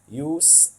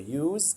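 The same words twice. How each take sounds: First: It is said with the noun pronunciation. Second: It is said with the verb pronunciation. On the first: The word is used as a noun. "use a noun" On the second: The word is used as a verb. "So use a verb"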